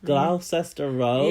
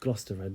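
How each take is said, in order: First: It is said with an American accent. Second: It is said with a posh British accent. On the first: A visitor unfamiliar with the name said it. The speaker calls it wrong. "I overheard some Americans once going" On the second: A local corrects the visitor. The speaker calls it right. "actually pronounced"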